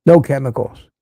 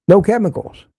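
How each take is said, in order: First: Said in the usual way. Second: No chemicals pitched higher, hit NO hard; emphatic repeat. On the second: Real, not acted. Driving home to viewers that cigars have NO chemicals. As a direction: punch NO in No chemicals as the clinching point.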